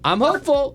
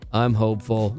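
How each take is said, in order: First: The tone is upbeat and cheerful. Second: The tone is downcast and gloomy. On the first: Things are going well. "oh, that's really great" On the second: Something is wrong and needs help. "uh-oh. Now, now we got some work to do today"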